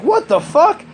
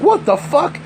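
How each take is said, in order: First: Put-on very high squeaky what the fuck from the kid; the nephew after the trip, a high shocked squeal; stunned kid. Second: High, stunned what the fuck from the mom; mock the mom's disbelief; retelling how his sister reacted, a high startled cry; shocked mom. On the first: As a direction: mimic the tripped kid's disbelief. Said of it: "and he's like". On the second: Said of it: "and she's like".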